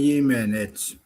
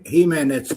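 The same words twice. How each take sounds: First: The name begins with a Y sound. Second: The name begins with an H sound. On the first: This is how it is said in Finland. "kun asutaan Suomessa, niin sanotaan Jimenez" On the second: This is how it is said in Spanish. "ne lausuu sen Jimenez, kun se on espanjaksi. J lausutaan H"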